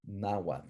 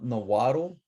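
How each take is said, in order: First: Nahuatl as NAH-wat, ending in a soft voiceless tl; native pronunciation. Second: Nahuatl as nuh-WAH-tul, three syllables; wrong anglicized pronunciation. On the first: Teacher shows class the top word, native pronunciation. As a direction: say Nahuatl in two syllables, stress first. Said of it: "Do not say Nahuatl ever". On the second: Teacher warns class what not to say, anglicized pronunciation. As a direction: draw out Nahuatl with an added vowel before the L. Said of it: "It's not Nahuatl". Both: Shown as a demonstration.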